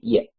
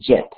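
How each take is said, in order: First: The word begins with a soft 'y' sound. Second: The word begins with a hard 'j' sound. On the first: The speaker calls it right. "Es como si tuviéramos una i normal" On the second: The speaker calls it wrong. "No se dice jet"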